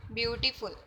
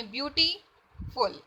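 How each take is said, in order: First: Quick, unbroken beautiful, syllables run together; in one breath. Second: Slow beautiful with a clear gap before full; broken into syllables. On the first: Teacher testing whether the word fits one breath, said quickly in one go. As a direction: try beautiful in a single go, no gaps. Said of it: "ਇੱਕੋ ਹੀ ਸਾਹ ਦੇ ਵਿੱਚ". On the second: Teacher showing students the word's syllables, broken apart slowly. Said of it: "ਇਹਨੂੰ ਆਪਾਂ ਤੋੜ ਕੇ ਬੋਲ ਰਹੇ". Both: Shown as a demonstration.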